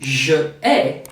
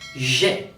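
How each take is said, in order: First: The two words are said separately. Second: The two words are merged into one syllable. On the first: The speaker calls it wrong. "It's not je ai" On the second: The speaker calls it right. "but j'ai"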